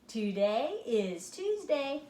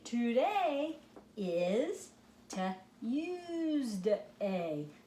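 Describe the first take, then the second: First: It is read quickly and smoothly. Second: It is read slowly, word by word.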